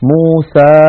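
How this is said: The final vowel is a fully open 'a'.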